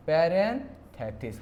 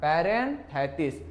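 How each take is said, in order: First: parenthesis said slowly, each syllable drawn out; slow spelled-out word. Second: parenthesis again slow, each syllable drawn out; slow spelled-out word. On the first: Teacher drills the word parenthesis slowly for students. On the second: Teacher repeats the word parenthesis slowly as drill. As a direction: drag out parenthesis for students to copy. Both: Shown as a demonstration. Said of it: "क्या नाम है बेटा".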